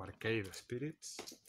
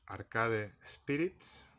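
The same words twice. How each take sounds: First: Arcade said English-style as "ar-KEID"; English pronunciation. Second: Arcade read Spanish-style as "ar-KA-de"; Spanish pronunciation. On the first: Correcting a game title for viewers, Arcade pronounced the English way. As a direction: say Arcade with an "ei" and silent final e. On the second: Reading a game title to viewers, Arcade pronounced the Spanish way. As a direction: say Arcade with every vowel sounded, in Spanish. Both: Shown as a demonstration. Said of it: "o Arcade Spirits".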